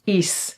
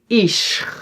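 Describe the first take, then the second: First: The ending has a plain s sound. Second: The ending has a sh sound. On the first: The speaker calls it right. "we pronounce it as is" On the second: The speaker calls it wrong. "we don't say ish"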